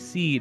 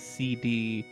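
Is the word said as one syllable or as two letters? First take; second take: one syllable; two letters. First: It is said as a single one-syllable word. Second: It is spelled out as two separate letters. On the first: The speaker calls it right. "it's supposed to be seed" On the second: The speaker calls it wrong. "I pronounced it as C D"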